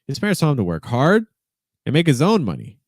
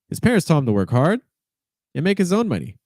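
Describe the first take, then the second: No difference in how they are said.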